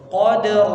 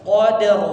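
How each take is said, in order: No difference in how they are said.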